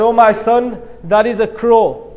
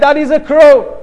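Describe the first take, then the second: First: Patient, even-voiced fatherly answer; gently retold answer, in an easy unhurried tone; loving patience. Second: Higher-pitched, emphatic retold irritation; angry. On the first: Father answers his little son's question, loving and patient. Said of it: "I told you with so much love and passion". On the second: Grown son ends scolding his old father, angry. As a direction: drive the answer home as a fed-up son. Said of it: "becomes angry and he says".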